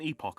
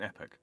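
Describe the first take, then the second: First: The second syllable sounds like 'ock'. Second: The second syllable sounds like 'ick'. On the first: The speaker calls it right. "They call an epoch" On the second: The speaker calls it wrong. "an epic"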